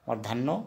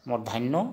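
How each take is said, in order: No difference in how they are said.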